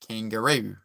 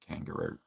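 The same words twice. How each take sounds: First: The pitch moves up and down a lot. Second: The pitch stays flat and monotone throughout. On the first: "the pitch goes up and down more" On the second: "New Zealand would say they're like"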